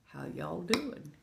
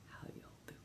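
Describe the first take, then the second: First: Hushed, softly voiced greeting. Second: Barely audible whisper; whispered greeting. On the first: Streamer checking in on viewers, soft greeting. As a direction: ask it softly, well below full voice. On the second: Streamer checking in on viewers, faint whisper. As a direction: drop it right down to a whisper. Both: Real, not acted.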